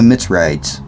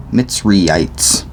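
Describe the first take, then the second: First: Mitzrayites said MITS-rites; shorter pronunciation. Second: Mitzrayites said MITS-ree-ites; fuller pronunciation. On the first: Reader naming the people, Mitzrayites as MITS-rites. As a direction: run Mitzrayites together, "rites" at the end. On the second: Reader correcting the people's name, Mitzrayites as MITS-ree-ites. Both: Shown as a demonstration.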